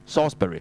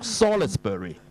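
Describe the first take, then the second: First: The L sound is left out. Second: The L sound is clearly pronounced. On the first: The speaker calls it right. "L 字唔發音嘅" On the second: The speaker calls it wrong. "你唔好讀Salisbury"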